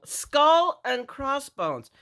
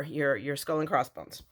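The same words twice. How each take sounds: First: Higher, slow, dramatic announcement of "Skull and crossbones"; a playful showcase of "Skull and crossbones"; drawn-out reveal. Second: Said in the usual way. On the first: Real, not acted. Showing off Halloween shaker bits.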